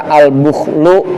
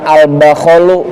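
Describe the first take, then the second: First: The first vowel is a rounded 'u' sound. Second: The first vowel is an open 'a' sound. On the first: "dibaca al-bukhlu boleh" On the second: "dibaca al-bakhlu boleh"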